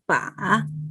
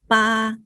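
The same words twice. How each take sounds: First: The pitch dips down and then rises. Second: The pitch stays high and level. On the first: "Third tone is fall down and rising" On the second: "first tone is flat tone"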